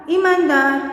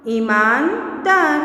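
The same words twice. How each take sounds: First: Said in the usual way. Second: Slow ईमानदार with a break before दार; word split in parts. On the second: Shown as a demonstration. Teacher breaking up ईमानदार for children, part by part. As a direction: say Iman, pause, then दार.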